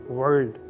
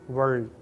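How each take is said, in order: Both takes have the same delivery.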